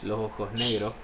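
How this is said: The first S is aspirated; final S dropped. "an accent that also aspirates the first S"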